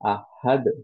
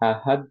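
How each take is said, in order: First: The final d ends with an echoing bounce. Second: The final d stops flat with no echo. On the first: "আহাদ বললে অ্যাকচুয়ালি কলকলা আছে।" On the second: "যদি আহাদ পড়তাম তাহলে কলকলা নাই।"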